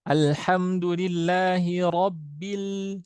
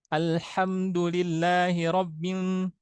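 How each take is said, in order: First: The L is pronounced clearly as an L. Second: The L sounds blurred and nasal, like N. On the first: The speaker calls it right. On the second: The speaker calls it wrong. "Ada yang membacanya lam dengan nun itu samar"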